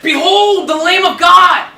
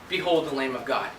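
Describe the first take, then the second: First: It is said loudly, with excitement. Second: It is said flatly, without excitement.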